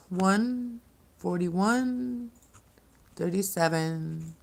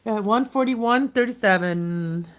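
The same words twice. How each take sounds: First: Each number stretched very slowly; slow, drawn out. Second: Said in the usual way. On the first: Shown as a demonstration. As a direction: draw the numbers out, high and slow. Repeats the time slowly.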